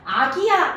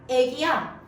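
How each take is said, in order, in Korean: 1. 첫 모음은 평범한 'a'예요. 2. 첫 모음이 'ae'로 앞당겨졌어요. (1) "아기야 아니라" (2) "표준 발음으로 인정하지 않습니다"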